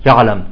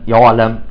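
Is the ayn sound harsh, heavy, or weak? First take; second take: weak; heavy. First: The ayn is loose and barely audible. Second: The ayn is heavy with rounded lips. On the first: "يلفظونها رخوة" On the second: "يخرجها مفخمة"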